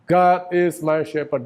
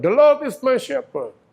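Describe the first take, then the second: First: Said in the usual way. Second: "The Lord is my shepherd" with "Lord" ringing high and loud, slowly; proclaimed verse. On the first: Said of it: "English repeat of verse". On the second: Shown as a demonstration. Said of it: "climactic verse".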